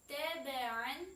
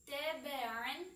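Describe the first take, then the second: The two takes are said the same way.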